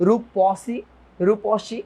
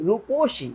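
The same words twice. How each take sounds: First: রূপসী said "rupɔshi", open middle vowel; expected open ɔ. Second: রূপসী said "ruposhi", rounded o in the middle; middle vowel as o. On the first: Teacher showing how it should have been, open ɔ in রূপসী. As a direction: say রূপসী with পɔ, as spelt. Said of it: "এরকম হওয়ার কথা ছিল না". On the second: Teacher showing what it became, rounded o in রূপসী. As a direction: say রূপসী with a clear "po". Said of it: "but হয়েছে কি?". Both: Shown as a demonstration.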